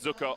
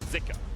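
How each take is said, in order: First: The first vowel is not an 'ee' sound. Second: The first vowel is an 'ee' sound. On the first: This is how the English broadcast said it. "it was pronounced Zuka on the L P L English broadcast" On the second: This is how it is said in Chinese. "in Chinese it's actually pronounced more with an I"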